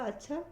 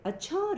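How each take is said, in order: First: It is said in a calm, matter-of-fact tone. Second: It is said in an astonished, exclamatory tone. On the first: The news is simply acknowledged. "ये सामान्य कथन हो गया" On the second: The news is unexpected and astonishing. "फिर आपको आश्चर्य होता है"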